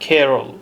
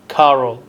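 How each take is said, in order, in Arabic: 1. الحرف المتحرك الأول ينطق مثل 'ee'. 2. الحرف المتحرك الأول ينطق مثل 'ah'. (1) "ينطق اسمها كيرول" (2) "ليس كارول"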